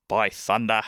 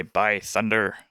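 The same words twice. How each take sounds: First: Said in the usual way. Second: Put-on pirate accent with a sounded R; pirate accent, R heard ending "thunder". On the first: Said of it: "the New Zealand accent is a bit". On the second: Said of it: "He would also say".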